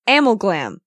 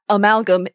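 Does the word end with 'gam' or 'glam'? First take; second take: glam; gam. First: The last syllable is said as glam. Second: The last syllable is said as gam. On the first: The speaker calls it wrong. "I pronounced it as Amalglam because I can't read" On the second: The speaker calls it right. "even though Pearl says Amalgam in the episode"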